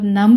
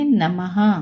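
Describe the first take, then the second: First: The word ends without an h sound. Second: The word ends with an h sound. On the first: The speaker calls it wrong. "नम नहीं पढ़ेंगे" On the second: The speaker calls it right. "ह की आवाज आनी चाहिए last में"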